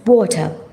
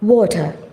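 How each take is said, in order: First: It is said in a British accent. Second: The same.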